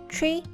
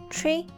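Both takes have the same delivery.

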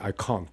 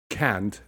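First: It is said with a British accent. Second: It is said with an American accent.

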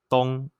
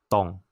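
First: The pitch is high and level. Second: The pitch is low and falling.

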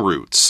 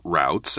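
First: It is said in a non-North American way. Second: It is said in a North American way.

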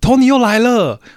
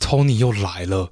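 First: The phrase is said in a pleased, happy tone. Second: The phrase is said in an annoyed, displeased tone. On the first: Tony's arrival is welcome news. "你用第一种讲法，他就会说，哦，真的吗？Tony 带了什么好东西给你？" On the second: Tony's arrival is unwelcome. "你用第二种讲法呢？他就会说，啊，Tony 做了什么事情？你怎么讨厌他？"

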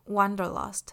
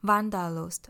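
First: The word is pronounced the English way. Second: The word is pronounced the German way. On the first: "那英文的话呢则是Wanderlust" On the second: "德文的话呢就是像刚刚讲的Wanderlust"

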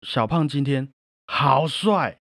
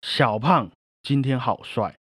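First: The stress is on 好帅. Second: The stress is on 小胖.

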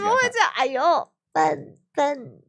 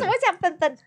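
First: It is said slowly, broken into parts. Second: It is said at normal, natural speed.

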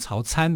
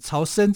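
First: The second syllable sounds like 'can'. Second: The second syllable sounds like 'shen'. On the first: The speaker calls it wrong. "如果把它念成曹参的话，不是不可以啦，但是是一个错读" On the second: The speaker calls it right. "应该读成为曹参才是一个比较正确的读音"

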